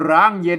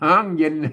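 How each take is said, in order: First: The first word begins with an r sound. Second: The first word begins with an h sound. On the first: The speaker calls it wrong. "ไม่ใช่ร้างเย็นนะครับ" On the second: The speaker calls it right. "หางเย็นไม่ใช่ร้างเย็นนะครับ"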